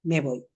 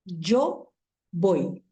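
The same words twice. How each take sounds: First: "me voy" linked smoothly, "me" leaning on "voy"; one single word. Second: "Yo" and "voy" split by a short pause, each word stressed; pause between words. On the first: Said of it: "la átona se agarró de la tónica". ("me voy" en un solo golpe, la átona pegada a la tónica) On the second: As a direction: give "yo" its own stress, then pause before "voy". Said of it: "Fíjense que cuando dije "yo voy", "yo" exige su autonomía". ("Yo... voy" con pausa y acento en cada palabra) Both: Shown as a demonstration.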